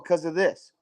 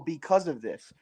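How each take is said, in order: First: The first word is shortened to one syllable. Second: The first word is said in full, two syllables.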